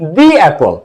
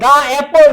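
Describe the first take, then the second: First: 'The' is pronounced with a long 'ee' vowel. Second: 'The' is pronounced with a short 'uh' vowel. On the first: The speaker calls it right. "এখন উচ্চারণটা আসছে দি অ্যাপল" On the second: The speaker calls it wrong. "দা অ্যাপল নাকি"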